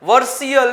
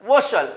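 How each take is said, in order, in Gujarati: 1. અંત 'ver-see-al' પ્રમાણે બોલાય છે. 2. અંત 'vershal' પ્રમાણે બોલાય છે. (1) "વર્સિયલ નહીં" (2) "વશલ બોલાય"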